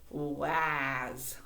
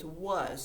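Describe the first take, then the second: First: Each letter is sounded out as spelled. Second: It is said in its usual spoken form. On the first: The speaker calls it wrong. "If you tried to sound that out, you would say was" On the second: The speaker calls it right. "That's not what it is. It's was"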